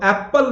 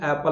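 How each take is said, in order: First: "एप्पल" with a hard doubled p; the wrong "एप्पल" with a half p added; mispronounced apple. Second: "एप्पल" with one light p and long first vowel; lower, easy "एप्पल" without the half p; corrected apple. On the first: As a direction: say "एप्पल" as ap-pal, the p held. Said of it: "इसमें आधा पा नहीं आता है". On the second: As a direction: say "एप्पल" as AE-pl, no doubled p. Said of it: "इसको एप्पल बोलना है". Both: Shown as a demonstration.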